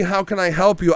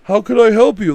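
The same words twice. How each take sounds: First: Lightly chirpy polite voice; mock polite greeting. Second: High, chirpy customer-service voice; overly polite greeting. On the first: Mocking the husband's calm greeting again, mildly chirpy. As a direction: toss it off falsely polite. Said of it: "it wouldn't be". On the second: Retold or imitated. Mocking the husband greeting an intruder, high and sugary. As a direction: sing it out falsely friendly. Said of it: "too much like".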